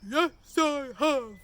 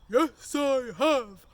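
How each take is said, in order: First: It is said in a big, loud voice. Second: The same.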